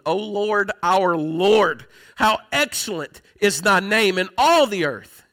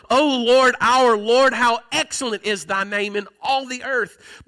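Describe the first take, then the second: First: Said in the usual way. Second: Slow opening cry of praise, ringing out; fervent, not monotone. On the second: Shown as a demonstration. Preacher shows how David said the psalm, fervent and emphatic. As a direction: proclaim it emphatically with long-held words. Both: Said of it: "He didn't say that in a monotone way".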